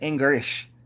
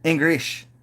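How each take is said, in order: First: The L sound is replaced by an R sound. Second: The same.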